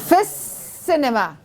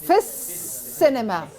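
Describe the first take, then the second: The two takes are said the same way.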